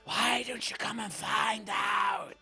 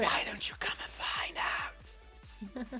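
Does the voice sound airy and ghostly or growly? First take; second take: growly; ghostly. First: The voice has a low growl in it. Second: The voice sounds airy and ghostly.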